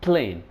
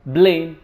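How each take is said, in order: First: Plane opened with a puffed P; clear P. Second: Plane said with a B, like blane; voiced B opening on blame; Arabic speaker's B-for-P slip in blame. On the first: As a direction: puff the P in plane. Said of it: "instead of a". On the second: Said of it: "they tend to say". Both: Shown as a demonstration.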